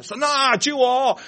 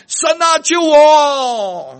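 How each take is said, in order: First: 神啊，救我 called out a little higher and louder, half the force of the first cry; a toned-down mock plea; milder retold cry. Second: A panicked yell for rescue; desperate shout. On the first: Preacher repeating his cry to God for the listeners, more gently. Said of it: "啊，明白我讲啊". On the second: Retold or imitated. Driver in a skidding car shouting to God for help. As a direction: cry out to God at full volume, high and loud. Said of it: "我就大喊".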